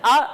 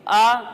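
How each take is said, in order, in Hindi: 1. स्वर झटका देकर काटा जाता है। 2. स्वर छोटा और सहज है। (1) "झटका देकर आ भी नहीं पढ़ेंगे" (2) "बगैर खींचे, बगैर झटका दिए आ पढ़ेंगे"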